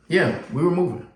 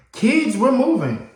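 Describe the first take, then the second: First: Said in the usual way. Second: Higher, slow, louder announcing; mom's announcement. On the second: Retold or imitated. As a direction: break the news to the kids. Mom announces move.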